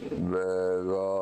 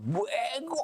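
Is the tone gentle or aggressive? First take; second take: gentle; aggressive. First: It is said in a gentle, non-attacking tone. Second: It is said in an aggressive, attacking tone.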